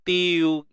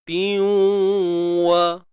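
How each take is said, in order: First: The sound is empty, without a nasal hum. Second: The n merges into w with a nasal hum. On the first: The speaker calls it wrong. "Kalau kosong ni tiu" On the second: The speaker calls it right. "tanwin masukkan dalam waw"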